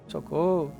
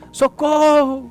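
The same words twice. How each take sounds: First: It is said calmly and quietly. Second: It is shouted with intensity.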